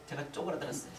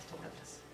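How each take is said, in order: First: Said in the usual way. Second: Very soft, shrunken whisper; whispered echo. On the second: Real, not acted. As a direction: repeat it almost without voice. Hushed echo of shrinking feeling. (쪼그라든 듯 작게 속삭이며)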